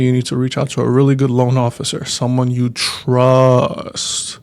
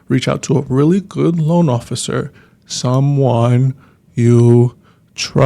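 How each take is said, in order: First: It is said at normal speed. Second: It is said slowly and deliberately.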